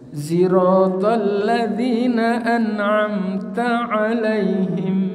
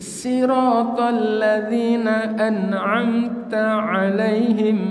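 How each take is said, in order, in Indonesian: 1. Bunyi pertama dari sirat condong ke z. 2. Bunyi pertama dari sirat adalah s biasa. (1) "tetap ismam pada huruf zai" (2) "dibaca sin pada shotnya itu"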